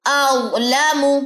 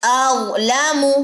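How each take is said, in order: No difference in how they are said.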